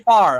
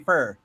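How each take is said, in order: First: The word has an open 'ah' vowel. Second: The word has a vowel like 'fur'. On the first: "I don't say far" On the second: "I say fur"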